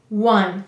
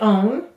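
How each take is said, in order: First: The word is said with a W start, like 'wun'. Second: The word is said with a long O, like 'own'. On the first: This is how the word is said today. "but now we say one" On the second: This is how the word was once said. "maybe we at one time said own"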